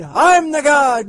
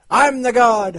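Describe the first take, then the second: First: Even higher, slow, drawn-out boast; mad scientist. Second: Loud, high, manic boast; mad scientist. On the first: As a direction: stretch it out, crazed and grand. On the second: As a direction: shout it like a mad genius. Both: Acted.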